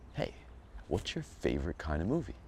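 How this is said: It is said with intense, exaggerated passion.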